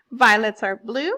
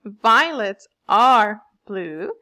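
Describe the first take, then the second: First: Loud rhyme read-out; recited example line. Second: "Violets are blue" slow, with loud swelling beats; exaggerated stress. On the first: Teacher reading class an example poem, loud recitation. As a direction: read the verse out firmly at an even pace. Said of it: "For example". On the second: Teacher demonstrating meter to pupils, "Violets are blue" slowly and heavily stressed. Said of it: "you hear a little stress in my sounds". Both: Shown as a demonstration.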